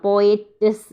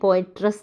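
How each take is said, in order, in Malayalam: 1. t-ന് ശേഷം r ശബ്ദമില്ല. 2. t-ന് ശേഷം r ശബ്ദം വരുന്നു. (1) "എന്നാണ്" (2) "എന്നല്ല"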